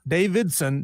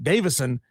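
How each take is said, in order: First: There is a d sound before the s. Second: There is no d sound before the s. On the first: The speaker calls it wrong. "not Davidson" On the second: The speaker calls it right.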